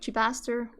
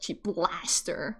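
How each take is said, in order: First: There is no L sound after the first syllable. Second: An L sound follows the first syllable. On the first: The speaker calls it right. "it's just like Chibaster" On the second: The speaker calls it wrong. "read it wrong as like Chiblaster"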